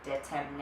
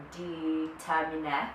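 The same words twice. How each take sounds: First: Second try at Latin "determine", said another way; alternative Latin pronunciation. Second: First try at Latin "determine", sounded out slowly; unsure Latin pronunciation. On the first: Speaker unsure how you say the Latin word, alternative pronunciation. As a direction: offer another careful guess at Latin "determine". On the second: Speaker guessing at the Latin word behind determination, unsure pronunciation. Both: Shown as a demonstration. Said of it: "I don't know how you say it".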